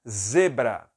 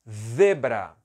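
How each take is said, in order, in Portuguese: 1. Começa com um som de z normal. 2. Começa com um z ceceado, parecido com th.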